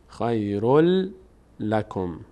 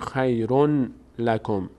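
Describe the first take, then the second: First: The n merges into a doubled l sound. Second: An n sound is heard before lakum. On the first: The speaker calls it right. "میگیم خیرل خیرل لکم" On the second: The speaker calls it wrong. "دیگه نمیگیم خیرون لکم"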